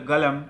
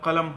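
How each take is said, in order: First: The word begins with a g sound. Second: The word begins with a hard k-like sound. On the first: This is how Saudis say it. "সৌদিরা বলে গালাম" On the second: This is the standard form. "শুদ্ধভাবে বলে কলম হয়"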